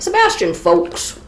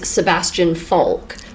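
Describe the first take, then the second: First: The surname ends with an s sound. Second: The surname ends without an s sound. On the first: The speaker calls it right. "There's an S" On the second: The speaker calls it wrong. "you got that wrong"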